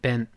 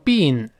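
First: The vowel is a short, lax 'i' sound. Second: The vowel is a long 'ee' sound. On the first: This is the American pronunciation. "但在美音中一定读成been" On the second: This is the British pronunciation. "在英式英语读成been 是有可能的"

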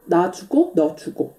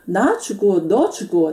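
First: The syllables are said on a flat pitch. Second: Each syllable carries a Chinese-style pitch tone. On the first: The speaker calls it right. "但是完全不需要加这个声调的，就直接是" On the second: The speaker calls it wrong. "但他说成的是我死你死，나죽고너죽고这样的"

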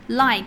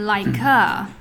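First: The word ends lightly without an added vowel. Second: An extra vowel sound is added after the final consonant. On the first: The speaker calls it right. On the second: The speaker calls it wrong.

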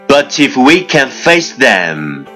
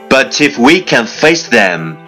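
The two takes are said the same way.

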